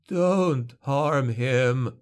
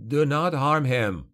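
First: Very slow, rasping plea; dying father begging the witch hunter; dry rasp. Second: Slow, higher firm warning; son's warning. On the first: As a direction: beg with a dry, failing voice. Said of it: "implored in a dry rasp". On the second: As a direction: warn the witch hunter off. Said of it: "Gregor warned". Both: A narrator's reading.

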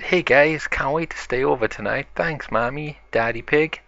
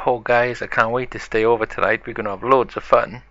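First: Higher-pitched, eager greeting; a touch of excitement, brightest on the opening words; excited. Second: Quick, eager rush of words; more excited. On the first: B one greets friends at the sleepover, excited. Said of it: "who is really excited". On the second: B two arrives for the sleepover, more excited. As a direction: gush along with mild excitement. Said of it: "more excited than B one". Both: Acted.

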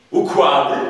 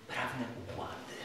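First: Shout. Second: Said in the usual way. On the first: Acted. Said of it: "krzyknął sędzia z niezwykłym zapałem".

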